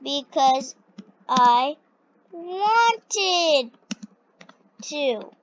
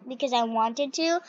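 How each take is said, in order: First: "Because I wanted to" with a pause after each word; halting, deliberate "Because I wanted to"; slow emphatic pauses. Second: Said in the usual way. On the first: Shown as a demonstration. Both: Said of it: "I'ma say".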